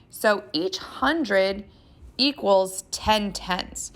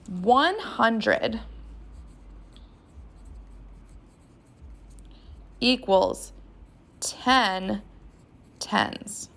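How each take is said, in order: First: It is said at a normal pace. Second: It is said more slowly.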